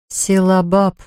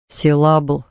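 First: «Силабаб» ending in bab, set apart clearly; corrected pronunciation. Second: «Силабл» ending in a bl cluster; mistaken pronunciation. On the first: Wife corrects husband's bakery name, «Силабаб» ending in bab. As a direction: say «Силабаб» with a final bab, not bl. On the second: Husband misremembers wife's bakery name, «Силабл» ending in bl. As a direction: say «Силабл», closing on l. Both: A narrator's reading. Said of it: "поправила она".

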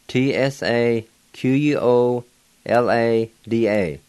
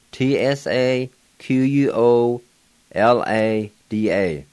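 No difference in how they are said.

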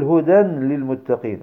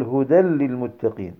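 First: "هدى للمتقين" with a clear N, "hudan lil-muttaqin"; wrong unmerged tanween. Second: "هدى للمتقين" as "hudal-lil-muttaqin"; correct merged tanween. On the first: Teacher showing what not to say, tanween left unmerged. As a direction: sound the N ending "هدى" before "للمتقين". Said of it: "لا تقل". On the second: Teacher giving the correct form, tanween merged into laam. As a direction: melt the N ending "هدى" into a doubled L. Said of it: "ولكن قل". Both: Shown as a demonstration.

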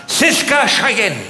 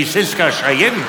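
First: Slow drawn-out call of "Siska Cheyenne"; a slow drawn-out hint of a mother calling "Siska Cheyenne"; calling the child. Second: Said in the usual way. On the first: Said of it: "Und sagt". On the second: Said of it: "Die Kinder in Afrika".

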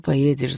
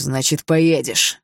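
First: Said in the usual way. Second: Slow, loud final word; father forcing his son to obey; furious insistence. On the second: Acted. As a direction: hammer it down.

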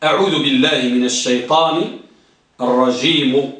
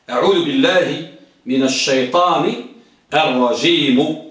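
First: Low, measured recitation; low rising recitation of أعوذ بالله; recited formula. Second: Recited formula again. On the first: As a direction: intone the formula low and even. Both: Shown as a demonstration. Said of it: "ها،".

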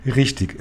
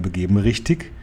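First: Richtig with a short falling tune; falling answer. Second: Richtig? lifted upward at the end as a question; questioning rise on richtig. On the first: The boy confirms the grandmother's plan, Richtig falling. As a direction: say Richtig as a flat, settled confirmation. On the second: Grandmother checks the plan with her grandson, richtig? rising. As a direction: ask richtig? with a rising tune. Grandmother asks the boy to confirm. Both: A narrator's reading.

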